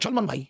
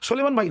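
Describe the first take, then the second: First: No vowel comes between the l and m. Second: An extra e vowel comes after the l. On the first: The speaker calls it right. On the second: The speaker calls it wrong. "উচ্চারণ কিন্তু হবে না, সলেমান ভাই নয়"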